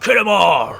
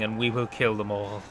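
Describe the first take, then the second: First: Gruff, rowdy battle cry, higher and louder; gruff orc voice. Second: Said in the usual way. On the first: Shown as a demonstration. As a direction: bark it like a rough pirate orc. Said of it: "I should say it in a gruff, ready voice". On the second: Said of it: "I sound way too formal".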